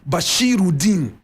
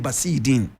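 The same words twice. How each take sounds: First: The name is pronounced carefully and in full. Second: The name is pronounced in a casual, everyday way. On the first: This is the correct form of the name. "The proper pronunciation" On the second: This is how schoolmates commonly said it. "But we just used to say"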